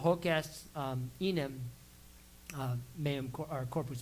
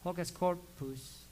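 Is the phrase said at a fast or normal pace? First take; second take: normal; fast. First: The phrase is said at a normal, careful pace. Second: The phrase is said quickly and run together.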